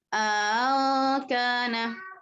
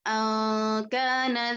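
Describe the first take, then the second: First: Second glottal stop is softened, long vowel inserted. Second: Only a single glottal stop is pronounced. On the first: "tashil hamzah kedua tapi ada idghal di sini" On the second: "dengan satu hamzah saja"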